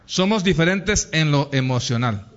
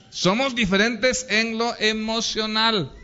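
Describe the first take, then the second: First: Said in the usual way. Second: "Somos diferentes en lo emocional" pitched up and driven home; emphatic restatement. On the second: Real, not acted. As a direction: repeat "Somos diferentes en lo emocional" higher, as the key point. Repeats the point for emphasis. ("Somos diferentes en lo emocional" con énfasis, más agudo)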